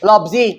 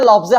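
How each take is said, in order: First: The word ends with an 'ee' vowel. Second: The word ends with an 'eh' vowel. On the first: The speaker calls it right. "লফজি হবে" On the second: The speaker calls it wrong. "এখানে লফজ হবে না"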